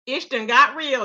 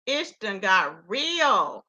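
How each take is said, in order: First: Said in the usual way. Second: "Ish done got real" said very slowly, low and falling, each word weighted; slow emphatic repeat. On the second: Shown as a demonstration. Host telling viewers things got serious, slow and weighted.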